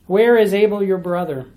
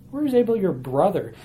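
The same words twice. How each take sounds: First: Said in the usual way. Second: "brother" singled out at the end of the question; stress on brother. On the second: Shown as a demonstration. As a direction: lean on the word "brother". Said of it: "Notice the word brother".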